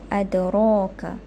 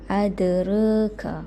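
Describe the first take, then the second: First: The vowel after 'r' is a fully open 'a'. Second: The vowel after 'r' leans toward 'e'. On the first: "membacakan dengan fathah sajalah macam biasa" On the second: "Taqlil bermaksud dia akan membaca dengan adraka"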